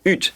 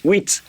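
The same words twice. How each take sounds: First: "ut" with a single vowel and no w glide; the common mistake "ut" for French eight; mispronounced huit. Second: "wheat" with a w glide into ee, then t; correct huit. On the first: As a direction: say "ut" as learners wrongly do, missing the ee. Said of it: "It's not "ut," it's "wheat". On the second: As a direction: say "wheat" like English with plus a crisp t. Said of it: "it's "wheat". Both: Shown as a demonstration.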